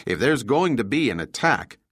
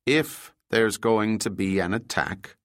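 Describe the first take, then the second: First: Said in the usual way. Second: "If" set apart and stressed, the rest slowed down; slow, deliberate repeat leaning on "If"; persisting. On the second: A narrator's reading. Overholt holds his point after Juan objects, stressing "If". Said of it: "Overholt persisted".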